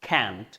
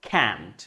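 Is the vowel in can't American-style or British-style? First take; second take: American; American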